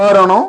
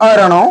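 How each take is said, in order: The two takes are said the same way.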